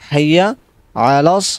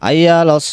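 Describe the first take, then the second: First: The first word starts with an h sound. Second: The first word starts with a vowel, no h. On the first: The speaker calls it right. "এখানে কিন্তু হাইয়া হবে" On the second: The speaker calls it wrong. "অনেক কি বলে আইয়া আলাস সলা এভাবে টান দেয়"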